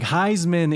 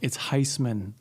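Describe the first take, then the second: First: The middle consonant is a buzzing Z sound. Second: The middle consonant is a hissing S sound. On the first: This is how the trophy's name is said. "the trophy pronunciation" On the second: This is the family's own way of saying the name. "It's not a Z. It's an S"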